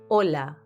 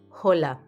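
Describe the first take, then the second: First: The h at the start is silent. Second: The h at the start is pronounced. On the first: The speaker calls it right. "Notice how the H is silent. We say hola" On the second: The speaker calls it wrong. "not hola"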